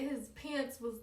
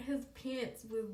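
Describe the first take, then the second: No difference in how they are said.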